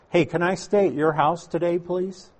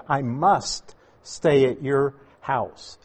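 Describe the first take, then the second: First: Lightly pleading, rising on please; a meek asking tone, not what was said; mock polite request. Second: Slow and firm, weight on stay; firm declaration. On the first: Preacher mocks a timid request Jesus never made, mock pleading. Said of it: "Not what he said". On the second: Retold or imitated. Preacher quotes Jesus's firm announcement to Zacchaeus, slow and firm. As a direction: state it as a firm decision. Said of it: "He said".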